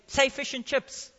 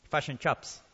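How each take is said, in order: First: Said in the usual way. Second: FISH AND CHIPS said as "fush and chups" in a New Zealand accent; low, soft New Zealand "fush and chups" for "fish and chips". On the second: Shown as a demonstration. Preacher teases New Zealanders over their giveaway accent, New Zealand accent. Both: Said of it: "the accent gives him away".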